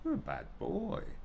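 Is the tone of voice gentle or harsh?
gentle. It is said in a gentle, caring tone. The child did something bad but keeps his worth. The speaker calls it right.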